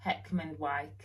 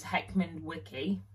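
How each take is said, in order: First: Heckman Wyke with "Wyke" as one syllable, like "like"; correct pronunciation. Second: Heckman Wicky with "Wicky" as two syllables; mispronunciation. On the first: Giving the proper place name, correct pronunciation. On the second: Confessing a misread Yorkshire place name, mispronunciation. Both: Shown as a demonstration. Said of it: "I thought it was Heckman Wicky".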